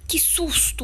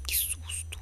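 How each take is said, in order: First: Sudden high gasp of fright; startled. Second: Breathless whispered relief. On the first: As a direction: jump scare yelp. Startled by the killer in game. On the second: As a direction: hush it out after the scare. Same words, whispered after the scare. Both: Real, not acted.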